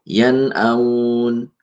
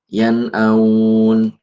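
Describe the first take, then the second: The two takes are said the same way.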